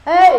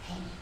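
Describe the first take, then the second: First: It is called out loudly. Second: It is said in a whisper.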